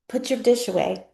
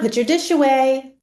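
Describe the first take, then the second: First: It is said softly and gently. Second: It is said a bit louder and firmer. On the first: This is a first, friendly request. "it might start off like this" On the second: The request is being repeated with impatience. "And then the second time kind of rolls around"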